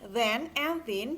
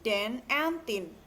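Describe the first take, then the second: First: It is said in a standard English accent. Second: It is said in a Jamaican patois accent. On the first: "Pengucapan yang berbeda seperti"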